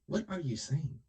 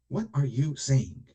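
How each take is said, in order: First: Said in the usual way. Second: Louder and slow, demanding an answer; exasperated louder repeat; louder, slower challenge. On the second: Real, not acted. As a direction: press the question hard, slowly.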